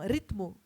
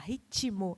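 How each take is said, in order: First: Said with no vowel between t and m. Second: Said with an extra i sound after t. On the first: This is how it is said in Portugal. "eles falariam ritmo, português de Portugal" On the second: This is how it is said in Brazil. "mesmo não tendo aquele i ali, a gente faz questão de pronunciar"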